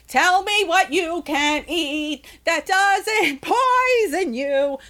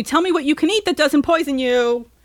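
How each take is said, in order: First: Slow, higher, stretched demand breaking into a laugh; drawn out. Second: Said in the usual way. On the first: Real, not acted. Ranting podcaster presses listeners, slow and laughing. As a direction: drag every word out, mock pleading.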